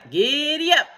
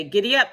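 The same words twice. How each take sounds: First: High, loud, stretched GIDDY UP; full cowboy whoop of GIDDY UP; yelled. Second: GIDDY UP loud, raised, rising at the end; short rising GIDDY UP; rousing call. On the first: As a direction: holler GIDDY UP to the horse. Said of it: "yelled Cowboy McCoy". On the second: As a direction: call GIDDY UP with an upward lift. First call to the horse. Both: A narrator's reading.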